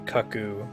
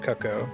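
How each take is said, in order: First: The word ends so that it rhymes with 'you'. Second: The word ends without rhyming with 'you'. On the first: The speaker calls it right. "it's supposed to be cuckoo" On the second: The speaker calls it wrong. "not cuckoo"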